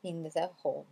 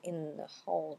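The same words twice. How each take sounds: First: "in the hall" with a full, separate "the"; THE pronounced separately. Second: "in the hall" as "in-na hall", TH absorbed; softer, slide "in" straight into "the"; liaison IN-THE. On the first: Teacher shows what she doesn't say, "in the hall" unlinked. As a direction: sound the TH of "the" apart from "in". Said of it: "je dis pas in the". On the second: Teacher models the liaison, "in the hall" blended into "in-na hall". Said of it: "on fait la liaison". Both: Shown as a demonstration.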